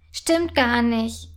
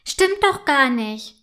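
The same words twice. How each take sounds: First: Langsam und gedehnt, stur dagegenhalten; trotzig. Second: Langsam und lauter, gekränkt widersprechen; beleidigt. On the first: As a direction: bockig auf dem eigenen Standpunkt beharren. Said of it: "entgegnet Clara trotzig". (trotzig und langsam widersprochen) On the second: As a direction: ein verletztes Kind, das sich wehrt. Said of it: "entgegnet Clara beleidigt". (gekränkt, langsam und etwas lauter widersprochen) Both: A narrator's reading.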